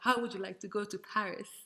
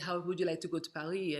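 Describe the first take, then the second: First: It is said in the speaker's plain accent. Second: It is said with a French accent.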